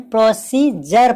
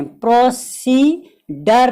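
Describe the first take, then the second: First: प्रोसीजर said with the D turned into a J sound, pro-see-jer; the right way, प्रोसीजर with J; correct version. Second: प्रोसीडर said slowly with a hard D sound, pro-see-der; the wrong way, प्रोसीडर with D not J; wrong version. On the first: Teacher modelling the correct pronunciation for students, clear and firm. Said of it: "प्रोसीजर पढ़ना है". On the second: Teacher demonstrating the wrong pronunciation to students, slow and deliberate. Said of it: "प्रोसीडर नहीं पढ़ना है". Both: Shown as a demonstration.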